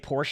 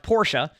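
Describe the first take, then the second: First: Porsche is said the common American way. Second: Porsche is said the non-American way. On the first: This is how people in America usually say it. The speaker calls it wrong. "in America we say Porsche a lot" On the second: This is how the name is properly said. The speaker calls it right. "apparently it's it's pronounced Porsche"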